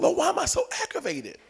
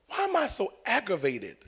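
First: High, soft plea to God; pleading question. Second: Subdued question. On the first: Driver praying in the car, high soft plea. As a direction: whine it softly upward in exasperation. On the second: Driver praying in the car, subdued soft plea. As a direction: ask it quietly, almost to yourself. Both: Retold or imitated.

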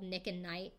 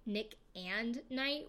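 First: Said in the usual way. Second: Slow, with "and" drawn out and set apart; stress on AND. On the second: Shown as a demonstration. Host clarifying the duo's name, leaning slowly on "and". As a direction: spell out the middle word "and" clearly. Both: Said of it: "intentional play on Nick at Night".

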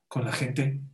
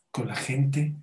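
No difference in how they are said.

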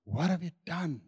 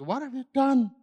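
First: Quiet question. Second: Higher, sharp accusing question; mock parent scolding. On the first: Shown as a demonstration. God not accusing the hiding pair, quiet. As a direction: say it softly, held back. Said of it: "Interesting that God didn't come and start by asking". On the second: Parent walks in on kids who messed up, mock scolding. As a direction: imitate a parent catching the kids. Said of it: "some parents typically come into a room".

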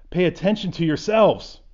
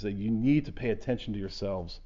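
First: Louder and higher, pressing hard on yourselves; emphatic reading. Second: Said in the usual way. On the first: Shown as a demonstration. Pastor reading Luke to his class, with emphatic force. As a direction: lean into "Pay attention to yourselves" with force, stress on "yourselves". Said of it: "I love the emphatic there". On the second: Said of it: "he said it with very deliberate".

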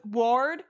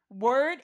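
First: WORD with an open or vowel; word as ward. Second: WORD with an er vowel. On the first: Testing friends on spelling logic, WORD said like ward. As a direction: say word to rhyme with board. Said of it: "What do you say?". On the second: Showing friends the spoken form, WORD rhymed with bird. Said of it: "It's word". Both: Shown as a demonstration.

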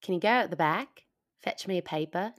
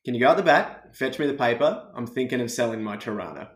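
First: Put-on British-tinged go at an Australian accent; attempted Australian, sounds British. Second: Native Australian accent as a model. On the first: Canadian guest copying the sentence, Australian attempt turning British. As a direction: try Australian but land on British. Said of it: "It started British". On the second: Shown as a demonstration. Giving the Canadian guest one more model, Australian accent. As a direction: demonstrate an Australian accent for a learner. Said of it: "Can you give it to me one more time?".

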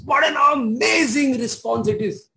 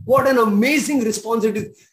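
First: Excited exclaim. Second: Said in the usual way. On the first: Real, not acted. Preacher marvelling at the woman's answer, excited. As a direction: exclaim it with wonder. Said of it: "repeated exclamation". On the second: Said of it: "repeated calmer".

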